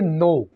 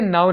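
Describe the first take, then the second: First: The vowel sounds like in "no". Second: The vowel glides like in "now". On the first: The speaker calls it right. "इसको हम ऐसे बोलेंगे नो" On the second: The speaker calls it wrong. "इसको आपने नाउ नहीं बोलना"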